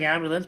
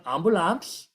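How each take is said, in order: First: "ambulance" said the English way, AM-buh-lunce; "ambulance" in plain English sounds, æmbələns; English pronunciation. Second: "ambulance" said the Hindi way as am-boo-laans, with full vowels; "ambulance" with open vowels, ambulans; Hindi pronunciation. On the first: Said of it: "It sounds like ambulance". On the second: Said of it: "but ambulance". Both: Shown as a demonstration.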